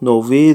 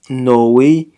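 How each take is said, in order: First: The middle consonant is a V sound. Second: The middle consonant is a W sound. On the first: The speaker calls it wrong. "It's not Novi" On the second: The speaker calls it right. "The V is pronounced as a W"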